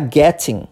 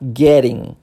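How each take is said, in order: First: It has a clear T sound in British English. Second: It has a soft flapped R-like T, American.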